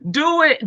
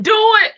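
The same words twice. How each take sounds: First: Loud, higher shout through a laugh; half-laughing yell at the chat. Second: Much higher, much louder yell; bigger shout. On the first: Hyped host shouting at the chat through laughter. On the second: Hyped host shouting louder at the chat. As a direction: let it fly up into a squeal. Egging herself on, laughing. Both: Real, not acted.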